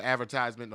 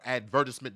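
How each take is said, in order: First: "advertisement" as AD-ver-tise-ment; American pronunciation. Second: "advertisement" as ad-VER-tis-ment; British pronunciation. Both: Shown as a demonstration. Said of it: "depending on where you're from".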